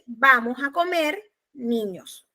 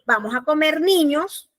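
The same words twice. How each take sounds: First: It is said with a pause before niños. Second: It is said with no pause before niños.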